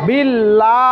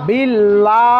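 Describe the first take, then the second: Both takes have the same delivery.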